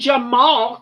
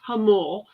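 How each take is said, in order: First: The name begins with a J sound. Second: The name begins with an H sound. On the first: The speaker calls it wrong. "So why would we want to pronounce it right?" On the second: The speaker calls it right. "which is really pronounced Hamul"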